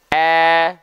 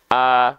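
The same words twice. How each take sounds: First: The vowel is said with spread, smiling lips. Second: The vowel is said with neutral lips. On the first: "Sekarang kita coba sambil soal tersenyum" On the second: "buka mulut saja"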